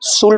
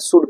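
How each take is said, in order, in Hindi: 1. "should" में अंतिम D से पहले L की आवाज़ सुनाई देती है। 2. "should" में अंतिम D से पहले L की आवाज़ सुनाई नहीं देती। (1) "शुल्ड नहीं पढ़ा जाता है" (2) "शुड पढ़ा जाता है"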